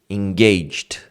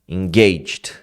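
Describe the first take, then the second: No difference in how they are said.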